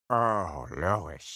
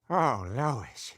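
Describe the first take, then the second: First: The voice is pitched lower than before. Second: The voice is at its ordinary pitch.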